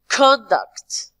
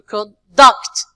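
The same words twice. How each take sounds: First: The stress is on the first syllable. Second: The stress is on the second syllable. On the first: It is used as a noun. "when we move to the nouns and adjective, we say" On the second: It is used as a verb. "The second part"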